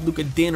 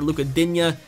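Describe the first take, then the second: First: The surname is said as one short syllable. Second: The surname is said with an added ending syllable. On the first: "I believe it's actually pronounced Din" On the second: "as you guys want me to pronounce it"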